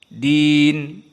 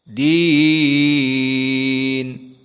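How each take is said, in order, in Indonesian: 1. Vokal ditahan dalam waktu yang pendek. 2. Vokal ditahan dalam waktu yang panjang. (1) "Pertama al-qasr. Din dua harokat saja" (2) "dengan al-isba' atau mengenyangkan"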